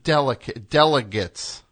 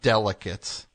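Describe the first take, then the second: First: It is said with a g sound, as delegates. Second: It is said with a k sound, as delicates. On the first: Representatives who cast votes. The speaker calls it right. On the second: Underwear. The speaker calls it wrong. "not delegates"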